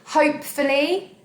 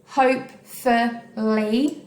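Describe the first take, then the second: First: Said in the usual way. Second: "Hopefully" as hope, ful, ly with gaps; slow syllable count on "Hopefully", last beat rising; split into syllables. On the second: Shown as a demonstration. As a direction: break "Hopefully" into three slow beats. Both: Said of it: "Three syllables again".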